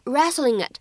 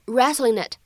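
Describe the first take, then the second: First: "wrestling it" with the g sliding straight into "it"; linked reading. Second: "wrestling it" said as "wrestlin-nit", an n bridging into "it"; linked with n. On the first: Teacher showing students one way to link, smooth "wrestling it". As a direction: run "wrestling" into "it", no break. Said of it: "你既可以读成wrestling it". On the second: Teacher giving students a second linking option, "wrestlin-nit". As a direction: link "wrestling" to "it" through an n sound. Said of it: "你也可以读成wrestling it". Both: Shown as a demonstration.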